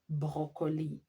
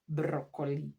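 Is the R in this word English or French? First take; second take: French; English. First: The R is a French throat sound. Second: The R is an English tongue sound. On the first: The speaker calls it right. "we pronounce it as broccoli. R, R. We say that R is pronounced as R" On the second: The speaker calls it wrong. "not broccoli"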